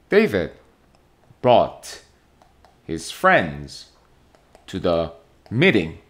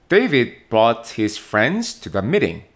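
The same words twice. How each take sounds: First: The sentence is broken into separate chunks. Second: The sentence flows smoothly without any breaks.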